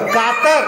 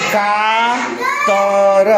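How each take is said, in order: First: Said in the usual way. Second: कातर with each sound held long; sounded out slowly. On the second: Shown as a demonstration. Teacher showing pupils how कातर reads, drawn out slowly. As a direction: stretch कातर right out, sound by sound. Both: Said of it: "क के बाद ऐसे".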